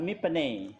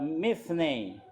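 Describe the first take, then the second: First: The middle consonant is a p sound. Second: The middle consonant is an f sound. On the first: The speaker calls it wrong. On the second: The speaker calls it right. "kalau nggak ada titiknya dibaca bukan P tapi F"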